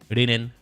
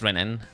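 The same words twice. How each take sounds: First: The name is said with Japanese-style sounds. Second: The name is said with English-style sounds. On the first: "pronounce it like the Japanese way, just Renan" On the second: "if you wanted to be Western about it and the way that I pronounce it"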